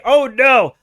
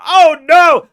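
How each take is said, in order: First: Repeated oh no. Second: Loud, high cry of alarm. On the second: Streamer showing how he reacts when Kerbals die, loud alarm. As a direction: yelp it as a rocket crew dies. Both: Retold or imitated. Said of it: "I literally say".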